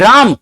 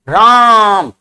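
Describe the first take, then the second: First: The vowel is held for a normal length. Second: The vowel is drawn out much longer.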